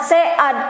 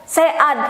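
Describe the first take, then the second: The two takes are said the same way.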